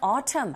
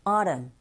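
First: It is said with a British accent. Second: It is said with a North American accent.

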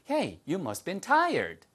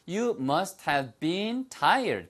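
First: It is said fast, with words run together. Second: It is said at a normal, careful pace.

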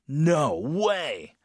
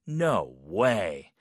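First: It sounds shocked and very strong. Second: It sounds doubtful and disbelieving.

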